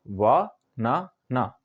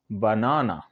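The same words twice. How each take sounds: First: "वा ना ना" in three slow separate beats; syllable by syllable. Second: Said in the usual way. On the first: Shown as a demonstration. Teacher showing learners the three parts, "वा ना ना" said syllable by syllable. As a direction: say "वा ना ना" slowly, pausing after each syllable. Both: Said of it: "तीन बार में बोल पाते हैं".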